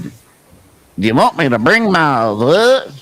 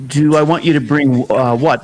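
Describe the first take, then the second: First: Slow, lightly mimicked thick Southern accent; a hint of Curtis's thick accent; imitating a thick accent. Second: Said in the usual way. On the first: Host retelling Curtis's phone question, a light thick accent. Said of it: "He had a really kind of a thick accent for me". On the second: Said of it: "And I said".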